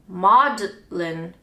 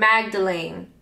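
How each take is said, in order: First: The name is said with two syllables, 'Maudlin'. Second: The name is said with three syllables, 'Magdalene'. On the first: The speaker calls it right. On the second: The speaker calls it wrong.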